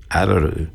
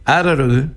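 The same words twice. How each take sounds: First: Araru spoken lower, ending on a fall; pronunciation demo. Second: Araru said high with a rising end; pronunciation demo. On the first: (palabra Araru dicha más grave y suave) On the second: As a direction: Araru spoken higher, ending on a rise. (palabra Araru dicha aguda, subiendo al final) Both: Shown as a demonstration.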